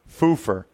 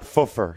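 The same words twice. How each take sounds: First: The first syllable sounds like 'Foo' in Foo Fighters. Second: The first syllable does not sound like 'Foo'. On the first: The speaker calls it right. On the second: It sounds like a childish word for passing wind. The speaker calls it wrong.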